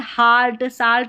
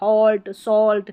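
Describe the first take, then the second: First: The vowel is an open 'ah' sound. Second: The vowel is a rounded 'aw' sound. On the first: The speaker calls it wrong. "यहाँ पर हाल्ट साल्ट नहीं बोलेंगे" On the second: The speaker calls it right. "तो अ उच्चारण होता है"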